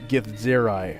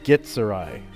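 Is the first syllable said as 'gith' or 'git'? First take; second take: gith; git. First: The first syllable ends in a 'th' sound. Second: The first syllable ends in a plain 't' sound. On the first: This is how current developers say it. "fifth edition developers ... they're all pronouncing it" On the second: This is how it was said when the race was created. "originally ... it was pronounced Gitzerai ... G I T dash Sir dash I"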